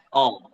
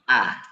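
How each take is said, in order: First: The vowel sounds heavy and rounded. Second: The vowel sounds light and open. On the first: The speaker calls it wrong. "jangan kita membaca huruf hamzah menjadi tebal ya" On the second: The speaker calls it right. "tapi A"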